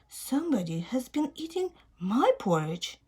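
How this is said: It is said in a sweet voice.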